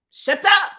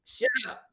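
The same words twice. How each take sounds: First: Loud, high yell of it; mock yell; shouted shut up. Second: A soft, clipped hush; hushed warning; quiet shut up. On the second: Pretend. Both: Mock hushing then yelling.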